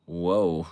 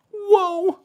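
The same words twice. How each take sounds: First: Said in the usual way. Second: Very high falsetto whoa; squeaky-high impression of a TV catchphrase; Joey Lawrence whoa. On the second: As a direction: imitate a sitcom catchphrase way up high. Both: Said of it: "And then Joey Lawrence goes".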